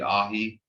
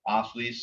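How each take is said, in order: First: The consonant is a plain H sound. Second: The consonant is a hissing THL sound. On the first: This is how the speaker's family says it. "the way my family says it would be an H" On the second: This is the more common way to say it. "athletes is more commonly said"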